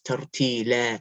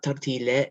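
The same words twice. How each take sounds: First: The final vowel is a full open a. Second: The final vowel leans toward an e sound. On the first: The speaker calls it right. "it's tartila" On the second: The speaker calls it wrong. "not tartila"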